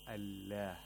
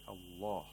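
First: The L is light, with a lowered tongue root. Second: The L is heavy, with a raised tongue root. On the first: The speaker calls it wrong. "We don't say Allah" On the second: The speaker calls it right. "We say Allah"

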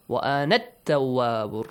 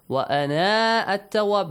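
First: The vowel after 'ana' is short and linked. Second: The vowel after 'ana' is held long. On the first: The speaker calls it right. "Change it to short vowel" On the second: The speaker calls it wrong. "You have to delete the long vowel"

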